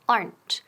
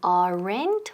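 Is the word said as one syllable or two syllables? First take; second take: one syllable; two syllables. First: The word is said as one syllable. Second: The word is said as two syllables. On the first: The speaker calls it right. "Quedan una sílaba" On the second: The speaker calls it wrong. "No es aren't ni aren't"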